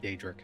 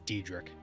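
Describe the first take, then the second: First: The first vowel sounds like ay. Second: The first vowel sounds like ee. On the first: This is the usual way to say it. "instead of Daedric" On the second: This is how one character in a game says it. "Boris in Oblivion says Diedrich"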